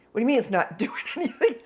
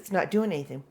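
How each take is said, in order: First: Quick, laughing mock disbelief; incredulous echo. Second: Said in the usual way. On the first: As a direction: throw the words back in amused disbelief. Repairman throws her words back.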